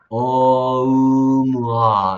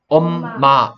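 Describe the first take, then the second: First: The sounds glide together in one blended stream. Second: Two crisp syllables, each sounded at once. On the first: This is how English speakers say it. "영어를 쓰는 사람들은 어떻게 소리 내느냐? 어음아 이렇게 소리 낸 거야" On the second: This is how Korean speakers say it. "우리 한국 사람들은 이거를 읽으라 그러면 엄마 이렇게 딱딱 소리 내지"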